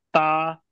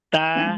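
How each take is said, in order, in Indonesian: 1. Vokalnya terdengar tebal, bibir tidak ditarik ke belakang. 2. Vokalnya terdengar tipis, bibir ditarik ke belakang. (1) "jadi tebal suaranya"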